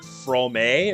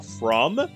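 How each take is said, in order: First: The name ends with an added final vowel sound. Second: The name ends without a final vowel sound. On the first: "it wouldn't be like from a or something stupid like that" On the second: "just kind of like maybe a silent e at the end"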